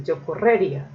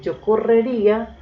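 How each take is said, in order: First: "correría" mis-stressed as co-RRÉ-ria; misplaced stress. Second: "correría" stressed high on the í, co-rre-RÍ-a; "correría" with the accent on RÍ. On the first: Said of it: "una muy distinta es decir". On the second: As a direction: lift and hit the í of "correría". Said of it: "Una cosa es decir". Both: Shown as a demonstration.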